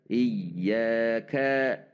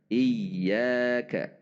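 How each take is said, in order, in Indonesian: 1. Nada naik pada suku ka terakhir. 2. Nada naik pada suku ya yang panjang. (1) "Tapi kalau di ka-nya kita juga meningkat" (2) "Maka di sini kita boleh meningkat"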